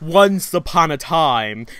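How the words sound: It is said in a put-on storytelling voice. The speaker calls it right.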